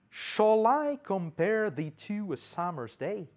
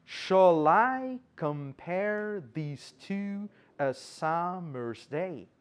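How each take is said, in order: First: Measured, slow recital of an English verse; verse recitation. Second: "Shall I compare these to a summer's day" very slowly, every second syllable drawn out; exaggerated iambic stress. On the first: Teacher quoting Shakespeare's first verse in English, recited. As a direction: recite the line slowly as a question. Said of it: "o primeiro verso do soneto dezoito de Shakespeare em inglês".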